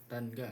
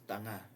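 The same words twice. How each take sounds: First: The middle has a hard g sound. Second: The middle has only a nasal ng sound. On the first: The speaker calls it wrong. "You're not gonna pronounce it as tan tanga" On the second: The speaker calls it right. "No, it's tanga nga"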